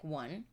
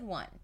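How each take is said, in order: First: It is said timidly, with embarrassment. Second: It is said boldly, with confidence.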